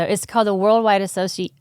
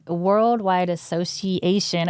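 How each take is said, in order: First: Said in the usual way. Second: Slowly sounding out Association; careful, deliberate Worldwide Association; slow careful retry. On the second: Real, not acted. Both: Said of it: "I can't say that word".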